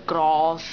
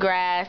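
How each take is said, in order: First: The word is said in a non-American accent. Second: The word is said in an American accent. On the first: "everywhere else grass" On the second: "American grass"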